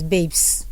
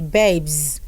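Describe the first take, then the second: First: The word ends with a hissing s sound. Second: The word ends with a buzzing z sound. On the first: The speaker calls it wrong. "People pronounce that word as babes" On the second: The speaker calls it right. "The letter S that is producing the sound of Z, so you rather say babes"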